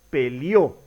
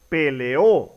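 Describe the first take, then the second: First: The e and o merge into one syllable. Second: The e and o are in separate syllables. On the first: The speaker calls it wrong. "y no" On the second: The speaker calls it right. "Se pronuncia"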